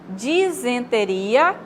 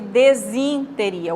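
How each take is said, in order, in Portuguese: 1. A segunda sílaba soa como 'zen'. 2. A segunda sílaba soa como 'zin'. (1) "o correto é dizen" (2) "e não desin"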